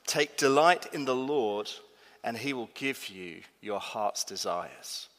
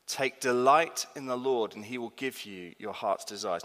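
First: A solemn, unhurried verse reading; slow scripture reading. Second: Said in the usual way. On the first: Shown as a demonstration. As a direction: read it slowly and solemnly. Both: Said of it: "It says this".

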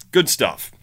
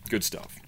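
First: Sarcastic. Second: Soft dry repeat of Good stuff; quiet sarcastic. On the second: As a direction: mutter Good stuff under the breath. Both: Shown as a demonstration.

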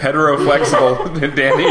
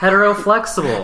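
First: Laughing echo of the term; laughing repeat. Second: Playful suggestion. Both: Real, not acted. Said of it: "That was perfect".

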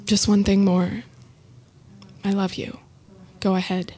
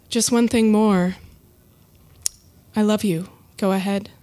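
First: Teary. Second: Said in the usual way. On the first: Real, not acted. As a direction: hold back tears as you say it. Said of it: "a little teary-eyed now". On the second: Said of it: "repeated again".

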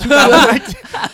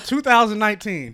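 First: Laughing, higher and louder; laughing correction. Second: Said in the usual way. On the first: Real, not acted. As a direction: laugh while fixing the year. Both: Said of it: "I said two thousand nine".

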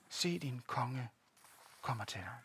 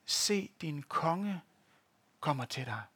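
First: "Se, din konge kommer til dig" slow and much softer, almost under the breath; hushed repeat. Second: Slow solemn quote. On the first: Preacher repeats the verse to the congregation, hushed and slow. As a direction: let the verse sink in quietly. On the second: Preacher reads the verse to the congregation, slow and solemn. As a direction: slowly draw out "Se, din konge", then let "kommer til dig" drop lower and softer. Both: Acted.

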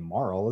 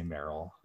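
First: "Marl", starting like "mar"; pronounced Marl. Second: "Meryl" with an eh vowel, like the real name; pronounced Meryl. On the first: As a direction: say "Marl" with an ah vowel. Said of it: "Meryl is a real name". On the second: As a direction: say "Meryl" in two syllables, MEH-rul. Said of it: "I say Meryl". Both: Shown as a demonstration.

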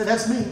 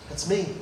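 First: Said in the usual way. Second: "That's me." said much softer, ending on a rise; softer echo. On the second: Shown as a demonstration. Preacher echoing the verse softly to himself. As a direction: let "That's me." drop to a soft, rising echo.

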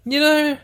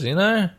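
First: "You know?" jumped high and squeaky; "You know?" pitched way up. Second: Said in the usual way. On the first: Shown as a demonstration. Pressing listeners with a high "You know?".

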